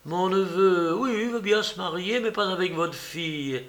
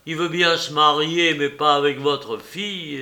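First: Lightly acted indignation, falling at the end; incredulous recital. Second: Firm, matter-of-fact mock announcement; nephew's suggested phrasing. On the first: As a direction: voice the absurd message as if aghast. Aunt voices the absurd message. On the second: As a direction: offer the excuse plainly, leaning on the start. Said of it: "une façon de dire les choses".

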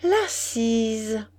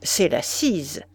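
First: La Cise as a lingering, musing echo; dreamy echo. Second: Said in the usual way. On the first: A narrator's reading. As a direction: repeat La Cise slowly, lingering on Cise. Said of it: "répéta-t-elle".

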